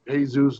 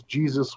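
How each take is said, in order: First: "Jesus" said the Spanish way, hay-ZOOS; Spanish pronunciation. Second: "Jesus" said the English way, JEE-zus; English pronunciation. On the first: Actor offers his name to the crew, "Jesus" as Spanish hay-ZOOS. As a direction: say "Jesus" as hay-SOOS, H at the start. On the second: Actor correcting himself offhand, "Jesus" as English JEE-zus. Offers both pronunciations of name. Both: Retold or imitated.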